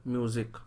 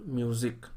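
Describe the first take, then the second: No difference in how they are said.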